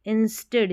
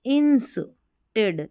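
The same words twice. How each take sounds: First: Said in the usual way. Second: "Instead" split into ins and ted; syllable by syllable. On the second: Shown as a demonstration. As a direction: break "Instead" slowly in two. Teacher splits the new word. ("Instead" को दो हिस्सों में तोड़कर)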